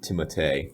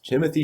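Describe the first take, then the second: First: The name is said with French sounds. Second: The name is said with English sounds.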